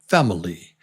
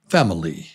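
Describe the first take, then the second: First: The middle vowel is reduced and barely heard. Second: The same.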